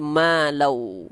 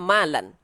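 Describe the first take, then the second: First: The word ends with a w sound. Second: The word ends with an n sound. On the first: This is the form as recited under the recitation rules. "karena hukum tajwid dia, maka dia berubah menjadi malau" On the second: This is the form as written in the verse. "kalau ditengok di ayat dia malan"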